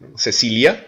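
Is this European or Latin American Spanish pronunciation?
Latin American. It is said with a Latin American Spanish accent. "en Amérique latine, on va dire Cecilia"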